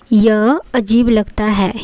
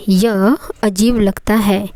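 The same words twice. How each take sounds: The two takes are said the same way.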